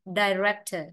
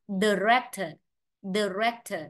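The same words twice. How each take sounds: First: "director" starting like "die"; American "ai" opening. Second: "director" starting with unstressed "duh"; schwa first syllable. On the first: Teacher showing the American option, "director" with ai opening. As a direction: say "director" as "dai-REK-tuh". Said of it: "tiếng Anh Mỹ phát âm ai". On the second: Teacher showing the first option, "director" with schwa opening. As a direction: say "director" as "duh-REK-tuh". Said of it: "nếu phát âm thành ơ". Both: Shown as a demonstration.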